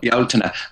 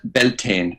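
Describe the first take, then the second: First: The name is said with Irish pronunciation. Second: The name is said with American pronunciation. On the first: This is the original native name. "the original and real name of that festival is actually Bealtaine is what we call it" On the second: This is the anglicised form used abroad. "it's easier understood called Bel- Beltane in the United States"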